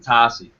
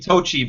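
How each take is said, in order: First: The name is said the Americanized way. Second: The name is said the original way. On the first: This is the adapted form the family uses. "we Americanized it to Tasi" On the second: This is how the family name should be said. "it's supposed to be Tochi"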